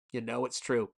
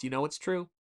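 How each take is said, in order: First: Falling, settled you know it's true; confirming own question, quieter and falling; answering tune. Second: Rising, asking you know it's true; teasing question, pitch up at the end; questioning tune. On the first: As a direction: state it flatly, dropping on true. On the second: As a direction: ask it, voice lifting on true. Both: Shown as a demonstration.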